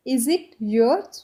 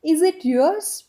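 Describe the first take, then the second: First: Is it yours, stretched slowly with a rise on yours; slow it right down so they can copy; very slow demo. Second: Said in the usual way. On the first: Shown as a demonstration. Teacher slowly repeating the English question for students. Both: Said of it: "इसको अब हम English में कैसे बोल सकते हैं".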